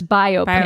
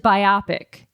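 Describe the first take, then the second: First: The word sounds like bio plus pic. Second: The word rhymes with myopic. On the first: The speaker calls it right. "but it's biopic" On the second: The speaker calls it wrong. "I read it as biopic, ... my brain goes to biopic. Like, myopic"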